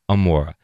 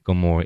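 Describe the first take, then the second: First: Gomorrah is pronounced the original Hebrew way. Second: Gomorrah is pronounced the common English way. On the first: The speaker calls it right. "in the original language, it is Gomorrah" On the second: The speaker calls it wrong. "it is not Gomorrah"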